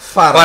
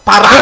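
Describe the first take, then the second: First: The name begins with an f sound. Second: The name begins with a p sound.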